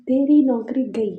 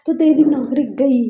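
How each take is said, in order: First: Said in the usual way. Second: Raised, louder threat to the assistant; threatening shout. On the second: Retold or imitated. Boss threatening his assistant on the phone, loud threat. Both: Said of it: "हमारे भैया call करते हैं और कहते कि".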